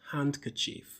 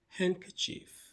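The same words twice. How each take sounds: First: The D in the middle is sounded. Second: The D in the middle is silent. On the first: The speaker calls it wrong. "not handkerchief" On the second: The speaker calls it right. "The D is silent"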